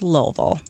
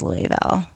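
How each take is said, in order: First: It is said the way locals say it. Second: It is said the way outsiders say it. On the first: The speaker calls it right. "It's pronounced Louisville" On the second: The speaker calls it wrong. "it's not pronounced Louisville"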